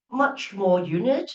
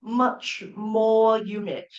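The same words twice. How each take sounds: First: Said in the usual way. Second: Slowly quoted. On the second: Shown as a demonstration. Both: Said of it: "see there".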